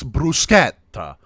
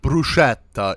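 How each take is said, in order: First: It is pronounced the native Italian way. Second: It is pronounced the American English way. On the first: The speaker calls it right. "it's bruschetta. Get it right" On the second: The speaker calls it wrong. "it's not bruschetta"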